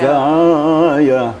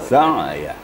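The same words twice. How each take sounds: First: The word is drawn out and lengthened. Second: The word is said short and plain. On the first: The speaker calls it wrong. "tidak boleh" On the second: The speaker calls it right. "tapi sederhana sa'ya"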